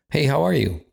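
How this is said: It is said in a warm, friendly tone.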